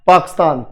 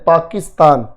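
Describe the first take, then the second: First: The k runs straight into a stressed s. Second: An i vowel is said between k and s. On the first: "अगर ये आई ना हो ... थोड़ा सा के और एस पर जोर पड़ता है" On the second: "आई को पढ़ते हैं पाकिस्तान"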